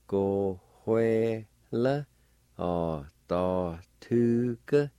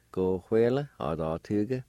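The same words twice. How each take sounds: First: "Go, hue, le. A, ta, tu, ke" slowly, every syllable separate; syllable-by-syllable pronunciation. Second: Said in the usual way. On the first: Shown as a demonstration. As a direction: sound out "Go, hue, le. A, ta, tu, ke" with gaps between syllables. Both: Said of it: "pronounced like this".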